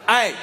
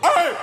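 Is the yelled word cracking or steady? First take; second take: steady; cracking. First: A firm yell in a steady, controlled voice. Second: A yell where the voice cracks and breaks. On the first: The speaker is annoyed but still in control. "Y'all being a little loud" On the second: The speaker has been pushed past his limit. "if you really got him at his wits end"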